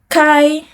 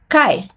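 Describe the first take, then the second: First: The pitch stays high and level. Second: The pitch falls sharply from high.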